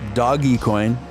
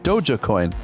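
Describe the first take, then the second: First: The first part sounds like 'doggy'. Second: The first part sounds like 'doja'. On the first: "I have heard some people pronounce it uh" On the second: "Some people pronounce it Doja Coin"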